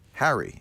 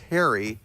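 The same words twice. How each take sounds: First: The first vowel sounds like in 'hat'. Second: The first vowel sounds like in 'hair'. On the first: The speaker calls it right. "but it's ha- Harry" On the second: The speaker calls it wrong. "you say it like it's Harry, like H A I R Y"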